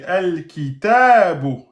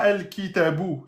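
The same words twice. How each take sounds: First: The vowel after the t is held long. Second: The vowel after the t is short. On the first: The speaker calls it right. "il y a le ta et là le petit alif" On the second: The speaker calls it wrong. "c'est pas el kitabu"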